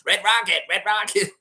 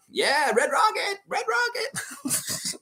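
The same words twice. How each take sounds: First: Lighter Cartman echo. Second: Very high, slow cartoon-kid voice; stretched-out mock Cartman squeal; Cartman impression. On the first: Retold or imitated. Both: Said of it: "I shouldn't say it like Cartman".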